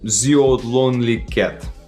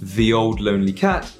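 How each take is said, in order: First: The th sound is said as a z. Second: The th sound is said as a voiced th. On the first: The speaker calls it wrong. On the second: The speaker calls it right.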